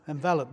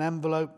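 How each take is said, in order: First: "Enveloped" said en-VEL-upt; short-e pronunciation. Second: "enveloped" said en-vuh-LOPED, long o; long-o pronunciation. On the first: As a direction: stress VEL in "Enveloped", short e, weak ending. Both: Shown as a demonstration. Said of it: "Is it enveloped or enveloped?".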